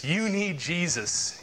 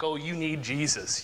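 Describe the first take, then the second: First: Slow, higher, drawn-out mock taunt. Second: Lightly imitated scoffer; mocking. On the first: Fools making a mock of faith, exaggerated slow jeering. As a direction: stretch the jeer out with exaggerated emphasis. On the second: Fools making a mock of faith, lightly jeering. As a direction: toss it off as a mild taunt. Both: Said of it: "they make a mock".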